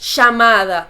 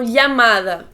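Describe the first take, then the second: First: Argentine accent, with the double L as sh. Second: Spain accent, with the double L sound kept. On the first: "Já na Argentina, os dois L's têm som de sh" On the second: "na Espanha eles falam llamada, com dois L's"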